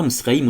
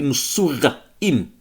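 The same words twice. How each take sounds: First: Moussouraïm said quickly as "Misraïm", with the middle vowels swallowed; Moussouraïm clipped to "Misraïm"; wrong way to say it. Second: Moussouraïm slowly and fully as "mou-sou-ra-ïm"; Moussouraïm drawn out with every vowel clear; correct way to say it. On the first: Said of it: "on dit pas Moussouraïm". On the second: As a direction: spell out Moussouraïm syllable by syllable, slowly. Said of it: "on dit Moussouraïm". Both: Shown as a demonstration.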